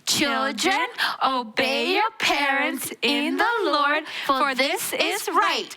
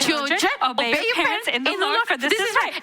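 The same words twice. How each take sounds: First: It is said at a normal pace. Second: It is said as fast as possible.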